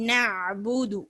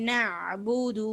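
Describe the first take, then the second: No difference in how they are said.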